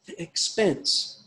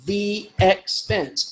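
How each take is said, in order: First: "The expense" drawn out slowly, the e of "the" run into "expense"; slow elided reading. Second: "the expense" stretched slowly, "the" slurred into "expense"; slow elided reading. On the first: Teacher reading a Shakespeare phrase, slow and drawn out. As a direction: read "The expense" slowly as two syllables, glided together. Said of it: "running those two lines together". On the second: Teacher showing how Shakespeare joins syllables, slowly. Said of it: "into two syllables". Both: Shown as a demonstration.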